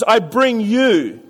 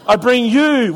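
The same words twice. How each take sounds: First: Very slow, stress on bring; slow deliberate reading. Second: "you" leaned on, a laugh in the voice; stress on you. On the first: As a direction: spell it out word by word. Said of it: "the next three words is". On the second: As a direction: hit the word "you". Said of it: "that's a really important word". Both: Shown as a demonstration.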